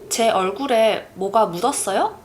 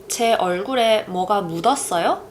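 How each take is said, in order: No difference in how they are said.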